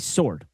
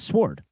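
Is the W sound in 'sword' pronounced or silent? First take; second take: silent; pronounced. First: The W sound is left out. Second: The W sound is pronounced. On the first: "You just drop the W" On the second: "but it's sword"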